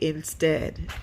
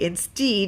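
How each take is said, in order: First: The second vowel is a short eh sound. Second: The second vowel is a long ee sound. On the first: The speaker calls it right. "you say instead" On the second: The speaker calls it wrong. "You don't say instead"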